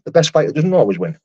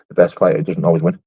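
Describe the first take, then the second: First: Higher-pitched, emphatic endorsement; agreeing. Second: Low-pitched comment read-out; reading aloud. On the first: Streamer granting a viewer's good point, agreeing. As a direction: repeat it as a point well made, pitched up. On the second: Streamer reading out a viewer's comment, low read-out. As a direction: read it out low and matter-of-fact. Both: Real, not acted.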